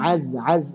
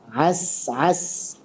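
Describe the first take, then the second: First: The consonant is a voiced buzzing z. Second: The consonant is a voiceless hissing s. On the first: The speaker calls it wrong. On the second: The speaker calls it right.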